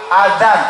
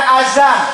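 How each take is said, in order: First: The middle consonant is a soft th sound. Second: The middle consonant is a z sound. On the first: The speaker calls it right. "Pakai dal ada titiknya" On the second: The speaker calls it wrong. "Bukan azan"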